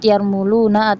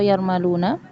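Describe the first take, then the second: First: The vowel after the m is 'u'. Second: The vowel after the m is 'a'. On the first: "mimnya dhammah" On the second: "mimnya dibaca dengan fathah"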